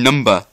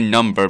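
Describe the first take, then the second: First: The word ends in a short 'uh' sound. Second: The word ends in an 'er' sound. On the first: This is how the show's characters spell and say it. The speaker calls it right. "I do mean number" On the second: This is the ordinary word. The speaker calls it wrong. "I don't say number"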